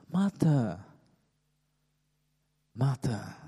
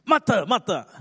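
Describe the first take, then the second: First: Very gentle voice. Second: High, loud, scolding call of the name; angry voice. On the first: The Lord catching Martha's attention, very gentle. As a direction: call the name tenderly, unhurried. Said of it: "saying in a very gentle voice". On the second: The Lord imagined rebuking Martha, angry voice. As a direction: snap the name twice in rebuke. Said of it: "in an angry voice?". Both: Shown as a demonstration.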